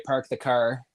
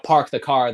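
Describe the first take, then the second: First: "park the car" with Canadian vowels; Canadian pronunciation. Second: Said in the usual way. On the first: Shown as a demonstration. Showing how Canadians talk, Canadian "park the car". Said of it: "They park the car". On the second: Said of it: "they don't park the car".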